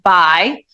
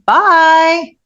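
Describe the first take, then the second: First: It is said in a plain, neutral tone. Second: It is said in a mocking tone.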